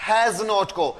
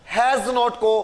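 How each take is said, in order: No difference in how they are said.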